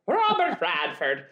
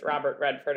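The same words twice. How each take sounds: First: "Radford" said slowly, first vowel as in cat. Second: "Redford" said with short e as in red. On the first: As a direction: say "Radford" deliberately with a as in bad. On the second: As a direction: say "Redford", first vowel as in bed. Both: Shown as a demonstration.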